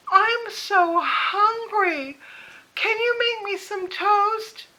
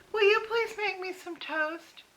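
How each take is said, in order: First: Put-on much higher, very slow, drawn-out plaintive old mother; whiny mother. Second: Put-on higher, sweetly pleading old mother; imitating mother asking. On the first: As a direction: whine for toast, stretching every word. Mother asks again, escalating. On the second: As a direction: ask for toast like a needy mother.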